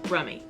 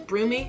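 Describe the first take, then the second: First: The first vowel sounds like 'u' in rum. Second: The first vowel sounds like 'oo' in room. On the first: The speaker calls it right. "but it's actually Brummie" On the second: The speaker calls it wrong. "I was saying it was Broomy"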